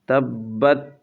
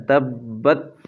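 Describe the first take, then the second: No difference in how they are said.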